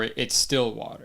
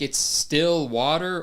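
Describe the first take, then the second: First: The stress falls on the word still. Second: The stress falls on the word water. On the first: It is water without bubbles. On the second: It is nevertheless just water.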